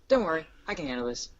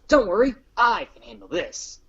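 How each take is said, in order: First: It is said in a flat monotone. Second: It is said with lively, varied expression.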